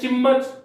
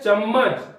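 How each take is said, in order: First: The first vowel is a short 'i'. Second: The first vowel is a short 'a'. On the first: This is how people say it in everyday speech. "उसको हम बोलते हैं चिम्मच" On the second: This is the standard written form. "शब्द है चम्मच"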